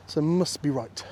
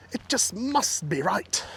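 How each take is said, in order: First: Said in the usual way. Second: Slow, higher, with "must" drawn out; stress on must. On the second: Real, not acted. Walker convincing himself of the path, "must" slow and stressed. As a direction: lean long and hard on "must".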